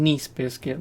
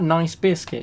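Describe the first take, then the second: First: The first word sounds like niece. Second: The first word rhymes with rice. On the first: It names one particular kind of biscuit. The speaker calls it right. "But by saying Nice biscuit, then you at least know" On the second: It sounds like the ordinary adjective. The speaker calls it wrong. "if I say, "Can you get me that nice biscuit?" you'd go, "Which one?""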